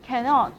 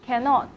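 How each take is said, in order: Both takes have the same delivery.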